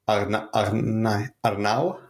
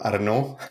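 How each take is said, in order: First: The name is pronounced in its original form. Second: The name is pronounced in a French way. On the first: This is the player's actual name. "han heter Arnau" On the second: This is how the French refer to him. "I Frankrike de kallar han for Arnaud"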